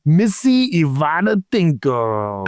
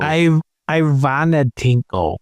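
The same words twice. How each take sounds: First: "Ivana" said as ee-VAH-na; "Ivana Tinko" read as ee-VAH-na TINK-o; name said "ee-VAH-na". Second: "Ivana" said as eye-VAH-na; "Ivana Tinko" reread as eye-VAH-na TINK-o; name said "eye-VAH-na". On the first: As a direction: start "Ivana" with an ee sound. Tries name two ways. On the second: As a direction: start "Ivana" with a long I, as in eye. Re-reads the name differently. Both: Pretend.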